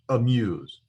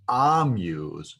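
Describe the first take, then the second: First: The first vowel is short and reduced. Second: The first vowel is full and long. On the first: The speaker calls it right. "but it's pronounced" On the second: The speaker calls it wrong. "so that it's not pronounced as"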